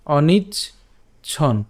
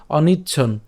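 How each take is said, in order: First: অনিচ্ছন split as "onich", pause, "chhon"; broken conjunct. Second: Said in the usual way. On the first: Shown as a demonstration. Teacher splits the conjunct for learners, অনিচ্ছন in two slow parts. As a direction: break অনিচ্ছন slowly between চ and ছ. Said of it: "আমি চ ছকে ভেঙেছি". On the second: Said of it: "না ভাঙলেও হবে".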